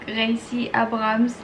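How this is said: The name is said with a French R. "j'ai un accent très prononcé sur le R ... ça fait un peu bizarre"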